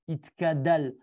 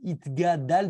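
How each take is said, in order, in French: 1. La deuxième consonne est un son k. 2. La deuxième consonne est un son g. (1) "ceux qui se trompent et qui disent it, itkadal avec un kouf" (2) "c'est itgadal"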